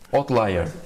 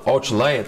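First: It is said with English sounds. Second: It is said with Brazilian Portuguese sounds. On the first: The speaker calls it right. "O certo é outlier" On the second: The speaker calls it wrong. "do jeito que eu falo, outlier, tá até portuguesado"

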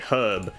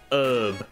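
First: Herb is pronounced the Australian way. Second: Herb is pronounced the American way. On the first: The speaker calls it right. "because I am Australian, so we say herb" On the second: The speaker calls it wrong. "not herb"

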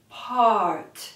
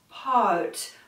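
No difference in how they are said.

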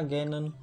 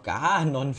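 First: The name is pronounced the English way. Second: The name is pronounced the German way.

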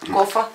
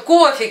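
First: The word ends in an 'a' sound. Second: The word ends in an 'e' sound. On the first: "У меня бабушка говорила всегда, кофа будешь?" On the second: "Я говорю, бабушка, кофе"

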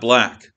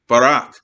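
First: A clear L is used in one syllable. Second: An R replaces the L, with a vowel between. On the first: A native English speaker says it. The speaker calls it right. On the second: A speaker whose language lacks an L sound says it. The speaker calls it wrong. "it would be barak, barak"

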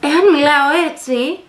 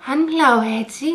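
First: It is said in a self-assured, assertive voice. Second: It is said in a sweet, tender voice. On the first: "και με αυτοεπίθεση" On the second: "γλυκά και τρυφερά"

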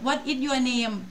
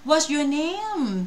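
First: It is flat, with a plain Thai accent. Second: It is linked and fluent, with an English accent. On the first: A native listener may not catch it. The speaker calls it wrong. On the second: It sounds natural to a native listener. The speaker calls it right.

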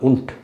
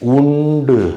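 First: The word ends sharply on a hard t. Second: The word ends with a soft added vowel. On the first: The speaker calls it right. "டீ மாதிரி உச்சரிப்பாங்க" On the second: The speaker calls it wrong. "உண்டு அப்படின்னு உச்சரிக்க மாட்டாங்க"

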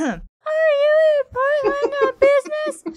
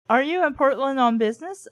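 First: It is said in a too-high voice. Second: It is said in a normal voice.

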